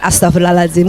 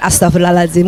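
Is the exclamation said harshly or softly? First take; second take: softly; softly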